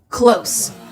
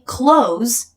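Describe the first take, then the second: First: The word ends with an s sound. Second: The word ends with a z sound. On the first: Being physically near something. "This is with an S" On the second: Shutting something, the opposite of open. "if you pronounce it with the Z"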